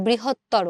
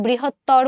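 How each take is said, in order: First: বৃহত্তর ending in a clear o, "brihottoro"; correct pronunciation demo. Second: বৃহত্তর ending abruptly on a consonant r; wrong pronunciation demo. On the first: Teacher showing students what we say, correct pronunciation demo. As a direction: sound the final o of বৃহত্তর. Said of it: "আমরা বলি বৃহত্তর". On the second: Teacher showing students what we don't say, wrong pronunciation demo. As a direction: say বৃহত্তর with the final vowel dropped. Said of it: "আমরা কিন্তু বৃহত্তর বলি না". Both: Shown as a demonstration.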